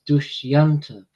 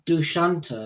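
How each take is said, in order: First: A 'y' glide follows the 'sh' sound. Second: The 'sh' runs straight into the vowel. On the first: This is the pure Sanskrit way of saying it. The speaker calls it right. "it's Dushyanta" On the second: This is the Bengali way of saying it. The speaker calls it wrong. "it's not Dushanta as he's got there"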